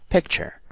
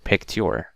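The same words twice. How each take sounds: First: The ending is said with a 'chur' sound. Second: The ending is said with a plain 'tur' sound. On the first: The speaker calls it right. "it has that chur sound" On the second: The speaker calls it wrong. "I don't say ture. That's wrong"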